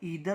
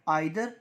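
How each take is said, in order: First: The first vowel sounds like 'ee'. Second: The first vowel sounds like 'eye'. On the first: "British को follow करते हैं इसलिए हम कहेंगे ईदर" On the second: "American में इसको क्या बोलते हैं"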